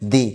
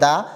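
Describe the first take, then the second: First: The word ends with an 'ee' vowel. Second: The word ends with a short 'uh' vowel. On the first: It comes before a word starting with a vowel. "ভাওয়েলের পূর্বে যদি T H E থাকে তখন উচ্চারণ হবে কি দি" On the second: It comes before a word starting with a consonant. "কনসোনেন্টের পূর্বে যদি এই টি এইচ ই থাকে তখন উচ্চারণ হবে দা"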